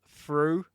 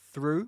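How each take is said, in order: First: It begins with an f sound. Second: It begins with a th sound. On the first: "replace the th sound with a th, th, f sound" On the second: "the th sound"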